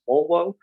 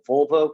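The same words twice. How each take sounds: First: The word begins with a rounded W sound. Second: The word begins with a fricative V sound.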